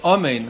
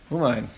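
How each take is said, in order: First: The first vowel is an open 'a' sound. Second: The first vowel is an 'u' sound. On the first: The speaker calls it right. "saying Amen with a komatz under the Aleph" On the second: The speaker calls it wrong. "the same thing with a shuruk"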